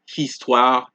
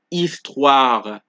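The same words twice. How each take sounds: First: The initial H is pronounced aloud. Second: The initial H is silent. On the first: The speaker calls it wrong. "we don't say histoire" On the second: The speaker calls it right. "it is homme, histoire"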